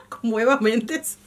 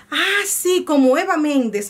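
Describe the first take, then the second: First: Laughing repeat. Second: Imitating husband. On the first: Retold or imitated. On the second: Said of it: "lo primero que me dijo fue".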